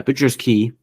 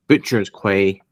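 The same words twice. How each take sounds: First: Quay pronounced exactly like key. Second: Quay pronounced kway, rhymes with way. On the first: Correcting the place name while reading, Quay as "key". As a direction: say "Quay" with a plain k, rhymes with see. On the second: Reading out the town's locations, Quay as "kway". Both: Real, not acted. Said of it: "That was very Matt Mercer of you".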